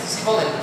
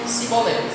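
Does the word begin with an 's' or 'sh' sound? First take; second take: s; s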